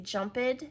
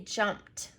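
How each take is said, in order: First: The ending is pronounced as an extra syllable. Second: The ending is a single T sound. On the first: The speaker calls it wrong. "When we add the E D, we don't say jumped" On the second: The speaker calls it right. "we say jumped"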